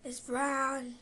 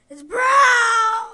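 First: Said in the usual way. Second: Loud, high horrified cry; dismayed shout. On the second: Real, not acted. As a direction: yell it in real dismay. Sees brown jelly bean.

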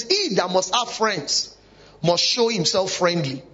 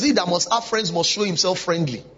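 First: Slow, each word of "He that must have friends" drawn out; slow, deliberate scripture read; slow emphatic quote. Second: Said in the usual way. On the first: Shown as a demonstration. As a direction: read the verse slowly so it sinks in. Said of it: "it says". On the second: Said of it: "the Bible says".

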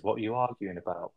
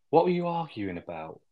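First: Said in the usual way. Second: Asked high and a bit louder, prying; pry into the row, pitched up; nosy question. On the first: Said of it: "I heard them raise voices". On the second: Retold or imitated. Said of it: "she's like".

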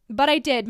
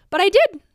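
First: Said in the usual way. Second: But I did, said high and loud with DID punched; emphatic. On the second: Real, not acted. Telling how she moved despite doubts, emphatic. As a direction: hit But I did hard and proud.

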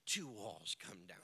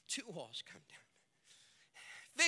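First: Whispered, barely voiced. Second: Very slow, each word drawn out; slow emphasis. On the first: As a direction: breathe it out as a secret. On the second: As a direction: stretch it out for weight. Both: Shown as a demonstration.

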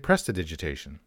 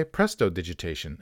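First: "prestidigitation" with weak uh after prest; quick pres-ti-digitation, no o; standard pronunciation. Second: "prestidigitation" with an o after prest; presto-digitation, falling at the end; presto-based pronunciation. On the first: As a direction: say "prestidigitation" as pres-tuh-dijit-AY-shun. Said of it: "easier to say". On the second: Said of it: "so just say". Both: Shown as a demonstration.

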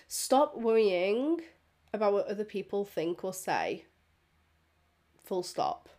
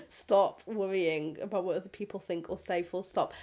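First: Slow, weighty first take; slow deliberate. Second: Said in the usual way. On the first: Shown as a demonstration. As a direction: lean on each word slowly.

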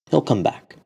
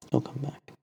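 First: Said in the usual way. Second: Much softer, almost under the breath; a hushed echo of firm faith; quiet repeat. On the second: Acted. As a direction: say it again very softly to yourself. Abu Dharr repeats, to himself.

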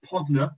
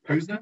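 First: Posner with a short o, as in "pozner". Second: Posner with a long o, as in "pose-ner". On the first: Trying out a singer's name, short-o [name]. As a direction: say Posner as POZ-ner. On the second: Unsure of the singer's name, long-o [name]. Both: Shown as a demonstration. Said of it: "I don't know how you say that name".

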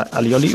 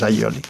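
First: Said in the usual way. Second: Alioli with a palatal ly, "a-lyi-o-li"; Valencian pronunciation. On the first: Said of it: "lo que tenemos que decir". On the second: Shown as a demonstration. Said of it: "seguir diciéndolo en valenciano".

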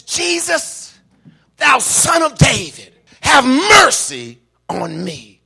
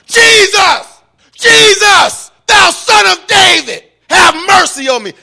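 First: Loud, high plea that slows and drops at the end; crying out. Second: Very high, full-force scream for mercy; crying out the more. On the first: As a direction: call out to Jesus for mercy. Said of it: "he's crying out to Jesus". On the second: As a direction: scream the plea louder, holding nothing back. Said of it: "he cried out the more". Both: Acted.

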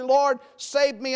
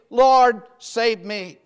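First: Slow, simple cry for help; simple plea. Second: Loud cry on Lord, falling away on save me. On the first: Peter sinking, simply asking the Lord to save him, slow plea. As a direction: say it plainly and slowly, just asking. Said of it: "he cries out simply". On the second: Peter sinking, crying out to the Lord for rescue, loud plea. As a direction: call out Lord for rescue, then drop. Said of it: "he cried". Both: Retold or imitated.

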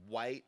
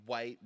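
Both takes have the same delivery.

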